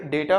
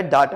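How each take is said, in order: First: डेटा as DAY-ta; long "ay" in डेटा; first option. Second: डाटा as DAA-ta; second option. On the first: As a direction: say डेटा with "day", not "daa". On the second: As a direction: open "aa" in डाटा. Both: Shown as a demonstration. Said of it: "आप एक pronunciation इसमें choose".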